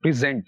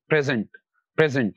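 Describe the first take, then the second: First: "present" as a verb, stress on SENT; stress on second syllable. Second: "present" as a noun, PRE strong; stress on PRE. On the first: Teacher shows the verb "present", stressed on SENT. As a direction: hit SENT in "present", first syllable reduced. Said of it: "second syllable पर stress देंगे". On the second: Teacher shows the noun "present", stressed on PRE. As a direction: stress the first syllable of "present", second one reduced. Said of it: "pre पर दे देंगे तो वो बन जाएगा noun". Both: Shown as a demonstration.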